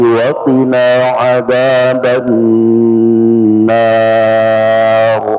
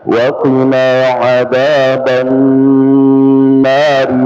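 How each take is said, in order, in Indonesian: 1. Vokal di nar dibaca lebih panjang saat berhenti. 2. Vokal di nar dibaca pendek, dua harakat. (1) "tapi kalau kita berhenti" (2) "kalau disambung maka an-narnya panjang hanya dua harakat"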